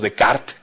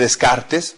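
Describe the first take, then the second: First: The name is said with French sounds. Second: The name is said with Spanish sounds.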